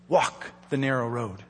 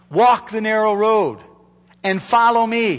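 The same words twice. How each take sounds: First: Walk the narrow road said low and soft, much softer; hushed charge. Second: Walk the narrow road said fuller and firmer, stress on walk; firm charge. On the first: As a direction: drop the voice to a near-hush on walk the narrow road. Repeated charge, first hushed. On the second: Repeated charge, now firm. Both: Acted.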